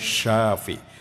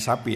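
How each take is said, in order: First: It begins with a 'sh' sound. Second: It begins with a plain 's' sound. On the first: It is the divine name meaning the Healer. The speaker calls it right. "Pakai sin besar ya" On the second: It becomes the word for a cow. The speaker calls it wrong. "jangan sapi nanti jadi kambing"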